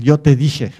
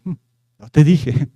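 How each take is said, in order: First: Said in the usual way. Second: "yo te dije" stretched out very slowly, needling; a lingering mock reproach, "yo te dije"; slow taunting "told you so". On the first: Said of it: "con esa frase". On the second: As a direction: drag out "yo te dije" like a smug reproach. Mocking the reproach phrase.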